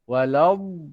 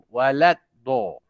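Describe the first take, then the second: First: 'Wala' flows straight into the long d. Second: A separate d sound closes 'walad' first. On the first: The speaker calls it right. "Walau pegang terus begitu" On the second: The speaker calls it wrong. "biasanya bunyi begini ya"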